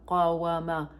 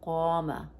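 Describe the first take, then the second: First: The word is said in full with a w sound. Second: The word is contracted without the w sound. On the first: The speaker calls it wrong. "if we were to pronounce it in the original form" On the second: The speaker calls it right. "that's more elegant and beautiful, and it's easy to pronounce"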